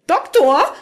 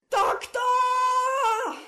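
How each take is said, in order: First: High-pitched call with some panic; slightly panicked. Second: Drawn-out, very high scream, muffled as from afar; hysterical scream. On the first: Rika calls the Doctor after glimpsing a ghost, slightly panicked. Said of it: "rief sie mit etwas Panik in der Stimme". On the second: Rika screams for the Doctor as the floor collapses, hysterical. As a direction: scream for help, held long but kept soft. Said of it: "schrie Rika hysterisch". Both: A narrator's reading.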